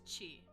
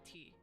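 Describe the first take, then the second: First: It begins with a ch sound. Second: It begins with a plain t sound. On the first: The speaker calls it right. "so this is chi" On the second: The speaker calls it wrong. "not T"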